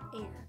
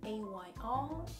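First: The name is said as a single word. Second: The name is spelled out letter by letter.

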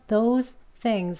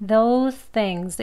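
First: There is a break between the two words. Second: The two words are linked in one breath.

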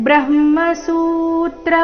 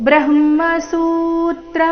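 No difference in how they are said.

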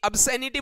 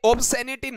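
First: The first vowel sounds like 'ab'. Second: The first vowel sounds like 'ob'. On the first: The speaker calls it right. "अबसेनिटी बोला जाता है" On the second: The speaker calls it wrong. "ये ऑब्सेनिटी नहीं"

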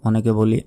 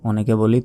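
Both takes have the same delivery.

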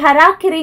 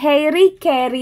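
First: The word sounds like hera-kiri. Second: The word sounds like hairy kairy. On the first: The speaker calls it right. "ഹെറാക്കിറി എന്നാണ് ഇതിന്റെ correct pronunciation" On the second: The speaker calls it wrong. "ഇത് നമ്മൾ വായിക്കുക ഹെയറി കെയറി എന്നാണ്"

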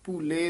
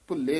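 First: The first vowel is long, single consonant after. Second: The first vowel is short, consonant doubled. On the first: The speaker calls it right. "ਦਲੈਂਕੜ ਨਾਲ ਉਚਾਰਨ ਕਰਨਾ ਹੈ" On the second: The speaker calls it wrong. "ਭੁੱਲੇ ਨਹੀਂ ਕਹਿਣਾ"

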